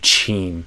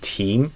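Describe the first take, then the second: First: The word begins with a CH sound. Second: The word begins with a crisp T sound. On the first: The speaker calls it wrong. "a lot of Brazilians would do chim" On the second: The speaker calls it right. "this t, t, t sound, not a C H"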